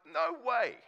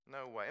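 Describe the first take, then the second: First: A high, loud "No way" shout; mock refusal. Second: Said in the usual way. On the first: Ditching the scam letter, a loud mock shout. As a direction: throw the offer away with a loud "No way".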